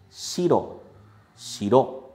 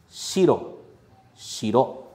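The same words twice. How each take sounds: Both takes have the same delivery.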